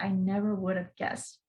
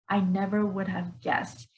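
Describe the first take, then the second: First: The words run together quickly with reduced sounds. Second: Each word is said fully and carefully.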